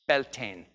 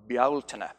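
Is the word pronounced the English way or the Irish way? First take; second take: English; Irish. First: It is said with an English pronunciation. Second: It is said with an Irish pronunciation. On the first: "You might know it as Beltane" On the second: "I say that with the Irish pronunciation"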